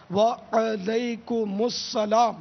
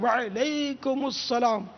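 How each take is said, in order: First: Very slow وعلیکم with وا- kept apart, long wa-a then the ain; correct pronunciation. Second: وعلیکم slowed with the ain made silent, wal-ekum; wrong pronunciation. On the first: Shown as a demonstration. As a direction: model the separated wa-a-laikum. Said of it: "الگ، یہ الگ کرنا پڑے". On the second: Retold or imitated. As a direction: mimic the common mistake of a silent ain. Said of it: "عین کو ساکن کر دیتے ہیں".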